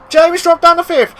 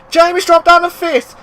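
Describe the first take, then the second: No difference in how they are said.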